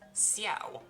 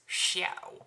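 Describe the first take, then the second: First: The name begins with an s sound. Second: The name begins with a sh sound. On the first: The speaker calls it right. "with an S, no no H" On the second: The speaker calls it wrong. "with an S H"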